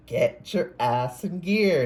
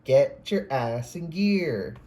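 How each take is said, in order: First: Slow, high, loud stern command; specific intonation. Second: Slow, loud, stern command; specific intonation. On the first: Reader repeats a spirit guide's command, slow and loud. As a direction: drag out each word like a spirit guide barking orders. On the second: Reader imitates a spirit guide's voice, slow and emphatic. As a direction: stretch each word out and land hard on gear. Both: Retold or imitated. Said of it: "with that specific intonation".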